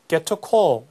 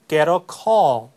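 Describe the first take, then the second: First: It is spoken in a British accent. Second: It is spoken in an American accent. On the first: "British accent로 하면" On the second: "American English로 하면"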